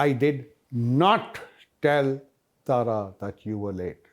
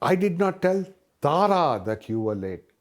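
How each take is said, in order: First: The stress is on the words did not. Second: The stress is on the word Tara. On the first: The denial is absolute. "I'm being more emphatic. Absolutely did not tell her" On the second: Someone other than her was told. "when I put the emphasis on Tara"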